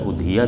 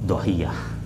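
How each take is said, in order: First: The word begins with a vowel sound. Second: The word begins with a consonant sound. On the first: "tidak udhiyah" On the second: "yang menghilangkan hamzahnya"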